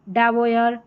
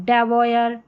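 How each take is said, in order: Both takes have the same delivery.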